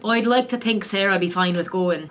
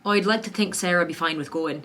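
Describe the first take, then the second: First: Second take of the line in Western Irish, a touch more sure; Western Irish accent. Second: First-try Western Irish accent, lightly done. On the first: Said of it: "that's my Western Irish". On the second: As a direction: read the practice line in a careful Western Irish accent. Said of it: "these are our practice sentences". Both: Shown as a demonstration.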